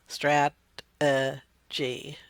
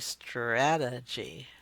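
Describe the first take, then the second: First: The syllables are said apart with pauses. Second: The syllables are blended into one smooth word. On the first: "instead of strat, uh, G" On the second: "they start to become connected"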